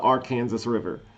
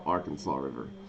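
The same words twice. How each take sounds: First: The name ends with a sounded 'sas'. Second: The name ends with a silent-s 'saw'. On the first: This is the local way of saying it. The speaker calls it right. "We call it the Arkansas River" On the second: This is the outside way of saying it. The speaker calls it wrong. "not not the Arkansas River"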